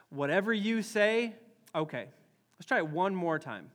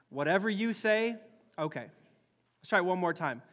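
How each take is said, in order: Both takes have the same delivery.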